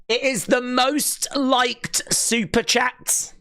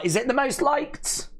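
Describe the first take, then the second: First: Slow, high drawn-out proclamation; amazed announcement. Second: High rising, incredulous question; amazed question. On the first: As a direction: stretch it out high, word by word. Confirms with amazed emphasis. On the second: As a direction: ask it high, rising at the end. Asks, then answers own question. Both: Real, not acted.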